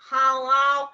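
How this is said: It is said in a flat, dull voice.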